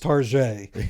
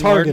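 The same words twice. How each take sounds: First: The name is pronounced in a fancy way. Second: The name is pronounced the plain, ordinary way. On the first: "kinda fancy" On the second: "it's not"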